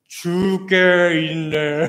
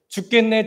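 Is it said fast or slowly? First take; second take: slowly; fast. First: It is said slowly. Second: It is said fast.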